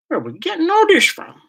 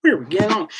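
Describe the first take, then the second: First: Much higher, in disbelief; a squeal of disbelief at the chat; incredulous. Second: No voice, just breath; whispered repeat. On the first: Shocked by the chat's turn to fairies. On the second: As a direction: whisper the question to himself. Repeats the question under his breath. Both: Real, not acted.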